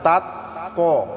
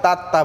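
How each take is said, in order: First: তাত্ত slow with the doubled ত্ত held; তাত্ত drawn out as the correct model; correct tajweed pronunciation. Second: তাত্তা with a plain, unstressed double t; তাত্তা said flatly as the mistake to avoid; wrong pronunciation. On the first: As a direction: hold the ত্ত in তাত্ত slowly and clearly. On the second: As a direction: say তাত্তা the wrong way, without the held ত্ত. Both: Shown as a demonstration. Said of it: "তাত্তা বললে হবে না".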